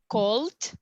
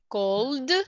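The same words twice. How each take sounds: First: The ending is a short t sound. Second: The ending is a short d sound.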